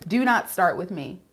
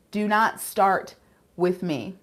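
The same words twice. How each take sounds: First: Said in the usual way. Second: "Do not start with me" slowly, word by word; slow warning. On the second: Real, not acted. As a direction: stretch the warning, pausing before "with me". Repeats warning with emphasis.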